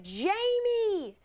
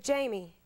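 First: High, stretched "Jamie" called out over the bar noise; exaggerated shout of her own name. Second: Said in the usual way. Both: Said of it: "I said".

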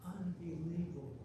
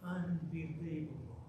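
The two takes are said the same way.

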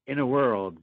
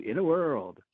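First: Trailer voice. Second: Higher, bouncy "In a World"; cheerful movie-trailer read; upbeat trailer voice. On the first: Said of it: "a one for In a World". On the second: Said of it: "but upbeat. Gotcha". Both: Pretend.

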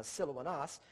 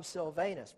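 First: Silvanus as sil-oh-ah-NAHS; Greek-sounding Silvanus with open AH vowels; proper pronunciation. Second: Loud, deliberate English Silvanus, long A; anglicized pronunciation. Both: Shown as a demonstration. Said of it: "properly pronounced again".

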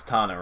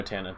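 First: Tana said as TAH-nuh; open-A pronunciation. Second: Tana said as TAN-uh; flat-A pronunciation. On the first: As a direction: give Tana an "ah" in the first syllable. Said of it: "Is it Tana or Tana". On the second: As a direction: give Tana the first vowel of "tan". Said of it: "No, no, no, Tana". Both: Shown as a demonstration.

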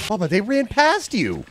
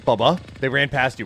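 First: High, exasperated cry to a teammate. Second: Said in the usual way. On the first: Real, not acted. Gamer to teammate who missed them, exasperated. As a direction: pitch leaps up in disbelief.

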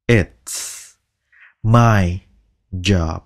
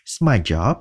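First: "It's", "my", "job" spoken one word at a time. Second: Said in the usual way. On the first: Shown as a demonstration. Teacher slowly splitting the phrase into words. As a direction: space out each word. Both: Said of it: "chỉ xì ra cái thôi".

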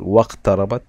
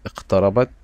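First: "واقتربت" joined as waqtarabat; silent alif. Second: "اقتربت" said alone as iqtarabat; initial alif sounded. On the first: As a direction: run wa straight into the q of "واقتربت". (نطق «واقتربت» موصولة دون ألف) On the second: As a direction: open "اقتربت" on a sounded vowel. (نطق «اقتربت» منفردة بألف منطوقة) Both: Shown as a demonstration. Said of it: "فلم تظهر الألف في النطق".

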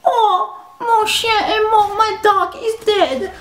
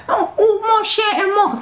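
First: High, slow fake-sob whine; mocking crying classmate. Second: High mocking whine; mocking whiny classmate. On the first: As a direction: mimic a whiny girl wailing about her dog. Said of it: "she'd be all like". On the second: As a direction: sneer at her fake grief in French. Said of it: "I ain't gonna tell them in French".

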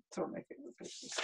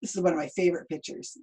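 First: Fast, soft whisper. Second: Said in the usual way. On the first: Real, not acted. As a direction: whisper it quickly. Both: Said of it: "repeated as whisper".

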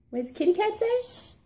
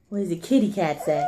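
First: Much higher, singsong "What does the kitty cat say?"; high singsong baby voice. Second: Said in the usual way. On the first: Shown as a demonstration. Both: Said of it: "repeated question to toddler".

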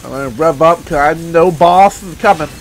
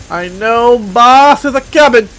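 First: Said in the usual way. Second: Slow, stretched-out foreboding; slow, deliberate announcement; drawn out. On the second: Real, not acted. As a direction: draw out BOSS and COMING. Same line repeated drawn out.

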